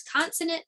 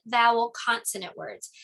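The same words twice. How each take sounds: First: Consonant lifted high and stressed; teaching emphasis. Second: Said in the usual way. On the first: Shown as a demonstration. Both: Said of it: "those are called C V C words".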